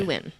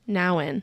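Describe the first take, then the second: First: The first vowel sounds like 'oo' in 'new'. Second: The first vowel sounds like 'ow' in 'now'. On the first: The speaker calls it wrong. "It's not Newen. I always say Newen" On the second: The speaker calls it right.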